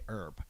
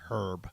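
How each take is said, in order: First: It is said the American way. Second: It is said the British way, as in England.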